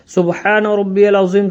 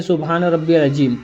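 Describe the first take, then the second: First: "अज़ीम" with a buzzing z, never j; correct Arabic pronunciation. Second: "अज़ीम" turned into ajeem, with j for z; common mispronunciation. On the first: Shown as a demonstration. Teacher modelling the bowing prayer, "अज़ीम" said with z. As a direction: say "अज़ीम" as azeem, with the Arabic z sound. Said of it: "किस तरीके से पढ़ना है वो भी बता दे रहा हूँ". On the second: Retold or imitated. Teacher imitating learners' mistake, "अज़ीम" said as ajeem. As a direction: say the z of "अज़ीम" as a hard j. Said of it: "बहुत से मेरे भाई ऐसे होते हैं".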